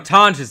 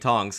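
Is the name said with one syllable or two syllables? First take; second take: two syllables; one syllable. First: The name is said with two syllables. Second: The name is said with one syllable. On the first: The speaker calls it right. "apparently is how you say his name" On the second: The speaker calls it wrong. "I'm saying it wrong"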